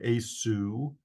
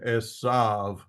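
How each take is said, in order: First: The name is said with a W sound. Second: The name is said with a V sound.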